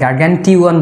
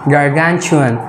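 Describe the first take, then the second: First: The ending is said with a plain 't' sound. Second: The ending is said with a 'ch' sound. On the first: The speaker calls it wrong. "টুয়ান বলি ... সেটা রং pronunciation" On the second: The speaker calls it right. "Correct pronunciation ... টি উচ্চারণ চর মতো হয়ে যাবে"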